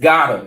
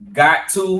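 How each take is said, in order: First: The words are merged into one reduced word. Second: Two full words are said separately.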